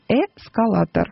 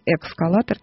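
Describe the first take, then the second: First: The word begins with es, with no k sound. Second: The word begins with eks, adding a k sound. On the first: The speaker calls it right. "Поэтому он «эскалатор»" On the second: The speaker calls it wrong. "Но не «экскалатор». Там такой приставки нет"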